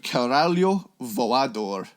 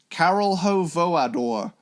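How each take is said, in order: First: The first word sounds like one whole word. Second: The first word sounds split into two parts. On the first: The speaker calls it right. "it's actually" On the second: The speaker calls it wrong. "my original dumb fourteen year old pronunciation of it"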